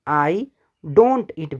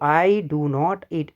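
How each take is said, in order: First: 'Do not' is said as the contraction 'don't'. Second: Both words 'do not' are said in full.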